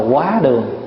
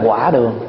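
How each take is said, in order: First: The first syllable has a high rising tone. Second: The first syllable has a dipping tone. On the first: The speaker calls it right. "cái buổi cơm trưa người ta gọi là quá đường" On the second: The speaker calls it wrong. "chứ không phải là quả đường"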